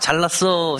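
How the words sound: It is said in a sincere, admiring tone. The person really did well. "정말 잘난 사람한테, 와"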